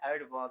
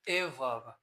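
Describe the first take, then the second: First: The d sound is clearly pronounced in the word. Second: The d sound is dropped from the word. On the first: The speaker calls it right. "वी और ए के में हो तो हम इसको silent नहीं कर सकते" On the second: The speaker calls it wrong. "यहाँ पर हम डी नहीं बोलोगे"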